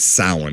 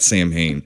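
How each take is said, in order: First: It is pronounced differently from its spelling. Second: It is pronounced letter by letter as spelled. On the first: The speaker calls it right. "but it's Samhain" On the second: The speaker calls it wrong. "It's not Sam Hain"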